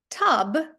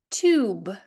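First: "Tub" with short uh vowel. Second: "tube" said toob, with no y glide; long-vowel "tube", oo rather than yoo. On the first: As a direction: say "Tub" with a brief uh. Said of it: "перетворюється на". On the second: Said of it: "а чого У, а не Ю?". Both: Shown as a demonstration.

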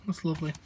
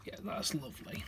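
First: Said in the usual way. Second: Breathy whispered approval; whispering. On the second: Real, not acted. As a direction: whisper it softly to yourself. Whispered comment next to plain take.

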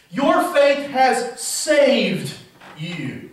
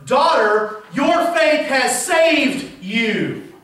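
First: Slow repeated. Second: Your faith has saved you, very slow and higher, each word weighed; slow solemn quote. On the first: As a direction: repeat it slowly and let it fade. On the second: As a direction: let it land slowly and gently. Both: Shown as a demonstration. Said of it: "what it says in the literal Greek".

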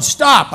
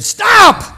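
First: Raised, higher stop, less than a full yell; re-tell her stop, a bit toned down; recalling the woman's outburst with a milder stop; hollered stop. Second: Sudden high yell of stop; retold drunk woman yelling at her seatmate; hollered stop. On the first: Retold or imitated. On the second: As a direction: bark stop like a tipsy passenger. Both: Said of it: "when she hollered".

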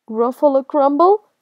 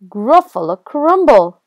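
First: Higher, loud, rising in disbelief; alarmed question. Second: Loud, emphatic, falling at the end; menacing announcement. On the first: Gruffalo hears the mouse's threat, alarmed. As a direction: echo it as a shocked question. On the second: Mouse threatens the Gruffalo, loud and emphatic. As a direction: announce the dish as a bold threat. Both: Acted.

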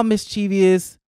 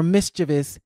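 First: "mischievous" said with an extra syllable, mis-CHEE-vee-us; mispronounced mischievous. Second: "mischievous" in three syllables, MIS-chuh-vus; corrected mischievous. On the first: Host reading a definition of imp, "mischievous" said mis-CHEE-vee-us. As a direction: say "mischievous" as if it ended in -ee-us. Corrects her own pronunciation. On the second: Host fixing her word for imp, "mischievous" said MIS-chuh-vus. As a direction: say "mischievous" stressed up front, no ee before -us. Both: Real, not acted.

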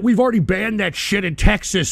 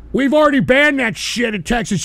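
First: Said in the usual way. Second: Louder repeat. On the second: Real, not acted. Streamer yelling his point again at online critics. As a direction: repeat it louder, building the rant.

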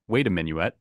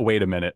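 First: "Minuet" as min-yoo-ET, three syllables. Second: "Minute" as MIN-it, two syllables. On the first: Host reading the title to Prateek, "Minuet" as min-yoo-et. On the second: Host checking with Alyssa, "Minute" as plain MIN-it. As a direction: read "Minute" the everyday way, MIN-it. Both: Shown as a demonstration. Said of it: "minuet or minute".

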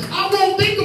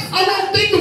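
The two takes are said the same way.

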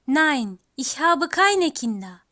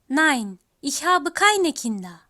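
The two takes are said the same way.

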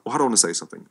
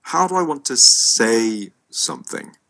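First: Quick, light stress on do; rushed take, do marked. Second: Slow, loud, weight on I; slowed and punched on I; stressed I. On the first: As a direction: tip the weight onto "do" in "how do I want to say something". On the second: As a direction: lean hard on the word I in "how do I want to say something". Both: Shown as a demonstration. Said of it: "it's kind of like thinking about".

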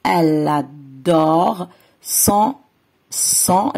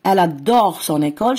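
First: "elle adore" drawn out, then "son" repeated; very slow word by word demo; slow stretched reading. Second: Careful teacher reading; slow model sentence. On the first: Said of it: "ورح تقرأ". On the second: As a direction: read "Elle adore son école" slowly, linking "son école". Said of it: "أوكي؟". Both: Shown as a demonstration.

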